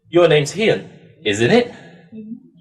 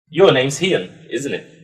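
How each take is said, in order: First: The pitch rises on the tag 'isn't it'. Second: The pitch falls on the tag 'isn't it'. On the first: The speaker is unsure and does not know the answer. "if we don't know the answer ... and you're very unsure" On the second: The speaker is quite sure of the answer. "if I was um, quite sure ... Just going down"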